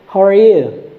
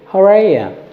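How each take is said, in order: First: The last word is a full 'you'. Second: The last word is reduced to 'ya'. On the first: "we just use the same how are you" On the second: "You just change the you and ya"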